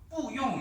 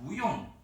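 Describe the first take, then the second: First: The first syllable has a falling tone. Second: The first syllable has a rising tone. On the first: The speaker calls it wrong. "뿌용 이렇게 하지 않고" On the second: The speaker calls it right. "부용 이렇게 합니다"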